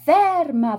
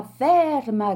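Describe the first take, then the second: First: High loud yell after the runaway; shouting stop. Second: A smaller, falling repeat of the yell; shouting again, less high. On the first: Gentleman yelling at his escaping nose, loud shout. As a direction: bark it sharp after the fleeing nose. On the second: Gentleman calling after his nose, fading shout. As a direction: let the second call drop, already losing hope. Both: A narrator's reading. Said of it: "gridò il signore".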